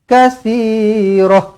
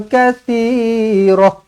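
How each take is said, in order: Both takes have the same delivery.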